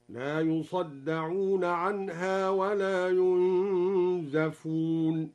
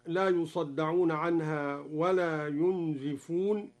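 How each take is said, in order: First: "ينزفون" said yunzafun, with a on the zay; slow drawn-out recitation, "ينزفون" as passive yunzafun; fatha on the zay. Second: Said in the usual way. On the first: Shown as a demonstration. Teacher showing al-Duri's reading, "ينزفون" with zay opened to za. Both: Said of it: "قرأ الدوري بفتح الزاي مبنيا للمجهول".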